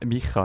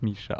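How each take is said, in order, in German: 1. Der mittlere Konsonant ist ein 'ch'-Laut. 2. Der mittlere Konsonant ist ein 'sh'-Laut. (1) "Micha, nicht Mischa" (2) "deinen Namen falsch gesagt"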